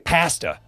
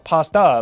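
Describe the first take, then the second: First: Pasta is said the Canadian or British way. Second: Pasta is said the American way. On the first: The speaker calls it wrong. "why the heck do you guys say" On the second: The speaker calls it right. "that's how we pronounce it"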